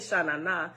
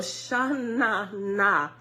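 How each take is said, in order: First: The word is said flatly, without extra energy. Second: The word is said with lively, funky energy. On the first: The speaker calls it wrong. "You can't just say Shanana" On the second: The speaker calls it right. "You just gotta put some funk on it"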